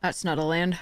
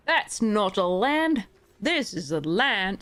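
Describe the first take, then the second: First: Said in the usual way. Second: Slow, drawn-out mock Australian accent; bad Crocodile Dundee Australian accent. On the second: The player jokes to viewers in a bad Australian accent. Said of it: "the worst accent ever".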